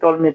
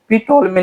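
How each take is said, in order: First: The name starts with a T sound. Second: The name starts with a P sound. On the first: The speaker calls it right. "बल्कि टोल्मी पढ़ते हैं" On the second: The speaker calls it wrong. "पी टोल्मी नहीं"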